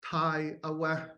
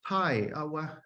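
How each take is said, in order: First: The high tone stays level without falling. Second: The high tone falls in pitch. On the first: This is the Northern dialect form. "it's a garden in Northern Tlingit" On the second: This is the Southern dialect form. "So there's this falling uh, tone again"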